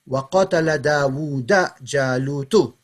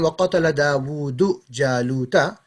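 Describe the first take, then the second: First: Dawood ends in a, Jalut ends in u. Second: Dawood ends in u, Jalut ends in a. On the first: Goliath killed David. "I just swap them two around" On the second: David killed Goliath. "instead of saying"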